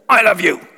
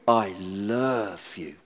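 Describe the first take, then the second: First: It sounds stern and scolding. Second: It sounds warm, deep and seductive. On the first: The speaker is being told off. The speaker calls it wrong. "you just heard I'm being told off" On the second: The speaker is being romantic. The speaker calls it right. "he's got such a voice"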